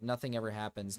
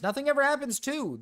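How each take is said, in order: First: Said in the usual way. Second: Very high, raised-voice catchphrase; mock exclamation. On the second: Streamer echoes a chat catchphrase, mock exclamation. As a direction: sing it out high in mock outrage.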